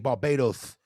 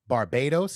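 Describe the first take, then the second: First: The s sound is said with a lisp. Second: The s sound is said clearly.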